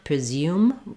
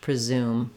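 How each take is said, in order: First: A y glide comes before the oo vowel. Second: The oo vowel has no y glide before it. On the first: This is how British speakers say it. "hear a British person saying with a y sound" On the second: This is how American speakers say it. "in American English"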